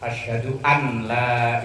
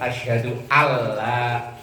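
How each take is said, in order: First: The n is pronounced clearly before l. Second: The n merges into the following l. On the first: The speaker calls it wrong. "kok diidharkan" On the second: The speaker calls it right. "Idgham itu kan asyhadu alla, nonnya hilang"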